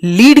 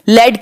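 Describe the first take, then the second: First: लीड said with long ee; long-ee pronunciation. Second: लेड said with an e; short-e pronunciation. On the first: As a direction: make लीड rhyme with "need". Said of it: "L E A D ही लीड की spelling है". (लीड को लंबी ई से बोलें) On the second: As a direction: make लेड rhyme with "bed". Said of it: "लेड की spelling है". (लेड को ए की मात्रा से बोलें) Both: Shown as a demonstration.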